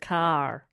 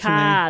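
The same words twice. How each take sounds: First: The R at the end is strong. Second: The R at the end is soft. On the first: "They don't roll their R's like the rest of America" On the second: "It's like a softer R"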